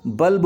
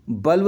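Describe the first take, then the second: First: बल्ब ending in b, as balb; correct b ending. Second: बल्ब ending in v, as balv; बल्ब with व for the last ब; wrong v ending. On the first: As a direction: close the lips to end बल्ब on b. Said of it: "बल्ब होगा". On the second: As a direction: end बल्ब on v with lips open. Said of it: "नहीं होगा". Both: Shown as a demonstration.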